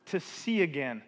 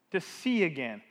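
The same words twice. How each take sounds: The two takes are said the same way.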